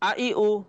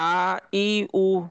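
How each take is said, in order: First: The vowels are said very quickly and short. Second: The vowels are said slowly and drawn out. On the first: The vowel stays short without lengthening. The speaker calls it right. "এজন্য আমরা খুবই দ্রুত উচ্চারণ করব।" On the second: The vowel risks being lengthened like an alif. The speaker calls it wrong. "আ ই উ কে যদি পড়ি আমরা এইভাবে, তাহলে একালিফ টান হয়ে যাওয়ার সম্ভাবনা আছে"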